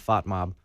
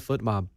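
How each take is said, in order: First: The first word sounds like 'fot'. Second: The first word sounds like 'foot'. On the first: This is how most people in the country say it. The speaker calls it wrong. "I know that they're all saying fot mob" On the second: This matches the Norwegian pronunciation. The speaker calls it right. "Just say foot mob"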